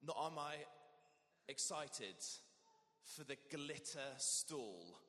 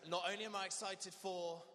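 First: Halting, slow, with long pauses; hesitant. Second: Bright, eager and louder, lifting on I; excited. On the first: Vicar showing reluctance about the glitter stall, hesitant and slow. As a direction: drag your feet over each phrase. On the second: Vicar leading the congregation, eagerly excited. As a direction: sell the excitement to the crowd. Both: Shown as a demonstration. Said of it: "a little bit of hesitation on that one".

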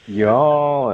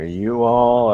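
First: "y'all" run into one word, drawn out high and loud; contracted y'all. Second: "you all" as two separate words, loud; uncontracted you all. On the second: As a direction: spell out "you all" in full, both words sounded. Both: Shown as a demonstration.

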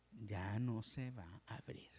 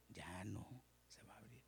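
First: Said in the usual way. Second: Much softer ominous whisper. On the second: Acted. Pastor repeating that the door stays shut, in a soft whisper. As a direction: breathe the line out as a final warning. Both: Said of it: "repeated as whisper".

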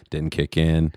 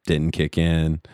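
The two takes are said the same way.

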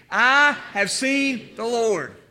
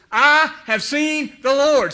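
First: Slow, measured, led for the congregation to echo; call and response. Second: Slow, higher and louder, every word proclaimed; joyful proclamation. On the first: Shown as a demonstration. Pastor leading congregation to repeat, slow call and response. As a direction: say it slowly so everyone can join. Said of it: "Say that with me". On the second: Acted. Mary announcing to the disciples, slow joyful proclamation. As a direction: announce it like the best news ever.

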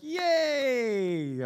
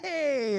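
First: Put-on a forced, half-hearted little cheer for the kid; mock cheer. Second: Higher, hammed-up cheer on command; bigger mock cheer. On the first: Pastor cheering a toddler at the fridge, forced mock cheer. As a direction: pretend to be thrilled at a cup of water. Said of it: "I'm like". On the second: Pastor told by his wife to keep cheering, hammed-up cheer. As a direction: push the fake excitement further because she told you to. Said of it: "She's like, "Keep cheering".

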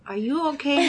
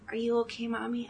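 First: Said in the usual way. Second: Soft unvoiced whisper of a worried child. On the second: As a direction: breathe it to hurt mom. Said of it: "He goes".

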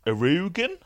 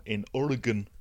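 First: Oregon said as "uh-ROO-gun", rising high; teasing "Oregon?" as uh-ROO-gun, pitched up questioningly; mock mispronunciation of Oregon. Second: Said in the usual way. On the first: Shown as a demonstration. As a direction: stress a long "roo" in the middle of Oregon. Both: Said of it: "as you would pronounce it".

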